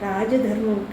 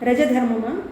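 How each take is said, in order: First: The first vowel is said long. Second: The first vowel is said short. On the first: The speaker calls it right. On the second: The speaker calls it wrong.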